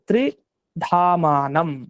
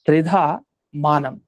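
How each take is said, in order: First: It is said as one unbroken word. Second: It is split into two parts with a break. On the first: It speaks of three abodes. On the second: It speaks of three kinds of means of knowledge.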